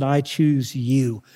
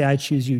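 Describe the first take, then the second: First: Slow, tender declaration. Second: Said in the usual way. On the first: Acted. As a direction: stretch each word slowly and tenderly. Father's choosing words, drawn out.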